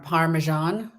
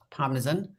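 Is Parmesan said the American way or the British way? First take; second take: American; British. First: It is said with an American pronunciation. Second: It is said with a British pronunciation. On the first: This is how Americans say it. The speaker calls it wrong. "they say um, par- Parmesan" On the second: This is how it should be said. The speaker calls it right. "but in the meantime it's Parmesan"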